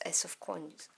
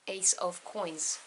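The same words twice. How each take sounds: First: "Ace of Coins" run together, vowels squashed; slurred pronunciation. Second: "Ace of Coins" very slowly, each word distinct; corrected pronunciation. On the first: Tarot reader stumbles over the card name, slurred pronunciation. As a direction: blur "Ace of Coins" so "Coins" nearly loses its vowel. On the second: Tarot reader fixes her stumble over the card, slow careful pronunciation. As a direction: repeat "Ace of Coins" carefully with full vowels in "Ace" and "Coins". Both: Real, not acted. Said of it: "I apologize for my terrible accent".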